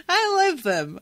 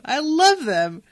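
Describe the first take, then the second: First: Excited, loving. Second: Slow, loud, heartfelt repeat. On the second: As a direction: lean into it with real affection. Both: Real, not acted.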